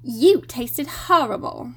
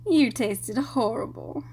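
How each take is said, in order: First: Slow prim schoolgirl; Hermione impression. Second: Said in the usual way. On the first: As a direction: do a bossy know-it-all schoolgirl. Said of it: "the worst Hermione impression ever". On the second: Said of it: "channel my inner Hermione".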